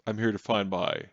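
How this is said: It is said in a man's voice.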